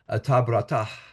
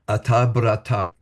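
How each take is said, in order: First: The word ends with a breathed h sound. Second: The final h sound is not heard.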